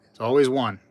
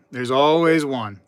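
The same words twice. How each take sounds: First: Said in the usual way. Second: "always" dragged out slowly and leaned on; slow emphatic repeat. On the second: Shown as a demonstration. To the chat about a caps-lock troll, slow pointed emphasis on "always". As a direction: repeat it slower and weightier, hitting "always".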